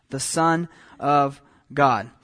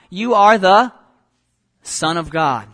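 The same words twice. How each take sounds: First: "Son of God" slow and lower, word by word; emphatic repetition. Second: Loud opening cry that drops away. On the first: Real, not acted. Preacher repeats the spirits' title to the congregation, "Son of God" slowly emphasized. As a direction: space out "Son", "of", "God" with weighty pauses. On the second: A narrator's reading. Preacher voices unclean spirits before Jesus, crying out. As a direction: cry out the first words, then pause and settle. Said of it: "and they cry out".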